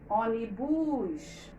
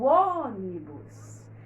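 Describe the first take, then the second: First: The stress is on the last syllable. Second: The stress is on the first syllable. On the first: The speaker calls it wrong. "Se eu demorasse mais na última, ficaria assim" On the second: The speaker calls it right. "A sílaba que a gente demora é essa aqui, a antepenúltima"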